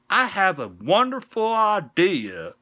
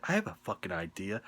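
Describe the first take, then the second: First: High, loud, slow fake Southern drawl; fake Southern accent. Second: Said in the usual way. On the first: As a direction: put on a terrible hammed-up Southern accent. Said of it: "fake Southern accent ever".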